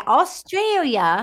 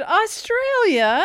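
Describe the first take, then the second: First: Drawn-out imitation Australian accent, higher; teasing, put-on Australian accent; mock Australian accent. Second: High, drawn-out excited cry; laughing, high-pitched excitement. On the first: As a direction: mimic a bad Australian accent, stretching AUSTRALIA. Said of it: "So you were like". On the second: Shown as a demonstration. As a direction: say AUSTRALIA high and stretched, with excitement. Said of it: "I was trying to sound excited".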